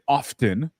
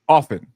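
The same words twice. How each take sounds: First: The T sound is pronounced. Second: The T sound is silent. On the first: "everybody starts pronouncing it often" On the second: "the T was silent"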